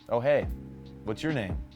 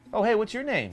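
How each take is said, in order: First: The voice falls at the end. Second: The voice rises at the end. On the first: The speaker sounds confident and in control. The speaker calls it right. "Downward inflections like that show confidence" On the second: The speaker sounds unsure and questioning. The speaker calls it wrong. "I would ask them questions"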